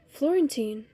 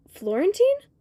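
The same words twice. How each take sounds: First: Said in the usual way. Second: High, sharply rising question; questioning call. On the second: A narrator's reading. Child spots Florentine on the bench, high questioning call. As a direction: call the name out as a surprised question.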